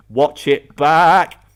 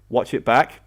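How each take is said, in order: First: "BACK" drawn out long and loud; slow, punched "watch it baaack"; emphatic repeat. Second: Said in the usual way. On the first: Real, not acted. Telling players to rewatch this game, emphatic and drawn out.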